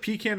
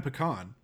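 First: "pecan" as PEE-can; "pecan" pronounced PEE-can; first variant. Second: "pecan" as puh-KAHN; "pecan" pronounced puh-KAHN; second variant. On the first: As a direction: say "pecan" stressed up front with a flat a. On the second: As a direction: say "pecan" stressed on the end with an ah. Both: Shown as a demonstration. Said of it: "it's just like pecan and pecan".

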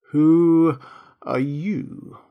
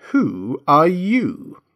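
First: Drowsy drawn-out caterpillar question; languid, sleepy. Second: Very slow, high, swooping disdain; contemptuous. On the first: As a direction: draw each word out lazily, with pauses. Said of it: "addressed her in a languid, sleepy voice". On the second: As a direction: stretch every word scornfully. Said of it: "said the caterpillar contemptuously". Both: A narrator's reading.

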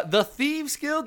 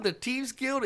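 First: Said in the usual way. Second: "Thieves Guild" said as "Teeves Guild"; Cajun "th". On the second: Shown as a demonstration. Correcting to Gambit's accent, "Thieves Guild" with a t for th. Repeats name in mock Cajun pronunciation.

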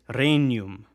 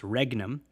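First: Regnum said slowly as REY-nyoom, the G N as ny; correct Latin pronunciation. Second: Regnum with a hard G, said REG-num; wrong pronunciation. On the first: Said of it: "The G N makes that ny sound". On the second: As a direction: say regnum the English way, hard G then N. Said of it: "it's not pronounced regnum". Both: Shown as a demonstration.

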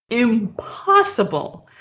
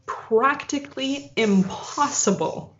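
First: Impossible drawn out even slower; slower emphasis. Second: Impossible drawn out slowly; slow emphasis. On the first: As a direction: lean hard on impossible. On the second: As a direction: stretch out impossible. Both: Shown as a demonstration.

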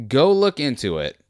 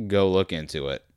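First: Repeating the order to viewers, louder and higher; emphatic. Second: Said in the usual way. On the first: Shown as a demonstration.

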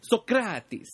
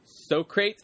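First: "Socrates" in three syllables, SOCK-ra-tees style, higher and louder; corrected Socrates. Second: "Socrates" said as SO-crates, two syllables; mispronounced Socrates. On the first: Socrates correcting his partner, "Socrates" with the ending sounded as tees. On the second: Billy the Kid introducing his partner, "Socrates" mispronounced as SO-crates. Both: Retold or imitated. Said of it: "trying to correct him".

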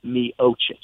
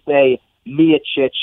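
First: "Miocic" as mee-OH-chich, slowly; rejected pronunciation. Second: "Miocic" as MEE-uh-chich; correct pronunciation. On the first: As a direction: move the stress in "Miocic" onto OH. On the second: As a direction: stress the first syllable of "Miocic". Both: Shown as a demonstration. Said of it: "not Miocic".

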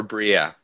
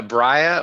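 First: Bria said BREE-uh, with an ee vowel; pronounced BREE-uh. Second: Bria said BRY-uh, rhyming with fire; pronounced BRY-uh. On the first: Host offers the other option, Bria as BREE-uh. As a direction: say Bria with a long ee. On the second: Host checks the player's name, Bria as BRY-uh. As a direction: say Bria with a long eye vowel. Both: Shown as a demonstration. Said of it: "How do you say it?".

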